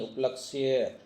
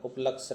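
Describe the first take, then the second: First: उपलक्ष्य said up-lak-shya, y sounded; correct pronunciation. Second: उपलक्ष्य cut to up-laksh, without the y; wrong pronunciation. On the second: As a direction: drop the final ya from उपलक्ष्य. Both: Shown as a demonstration. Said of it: "उपलक्ष्य नहीं".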